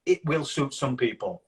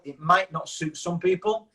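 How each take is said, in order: First: WILL leaned on, falling at the end; stress on WILL. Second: MIGHT leaned on, slow, rising at the end; stress on MIGHT. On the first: Coach reassuring those finding their audience, stress on WILL. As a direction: land firmly on "will" and close it off. Answering contrast to might not. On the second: Coach conceding to a client, stress on MIGHT. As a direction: draw it out with weight on "might", left hanging. Contrast of might not and will. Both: Real, not acted.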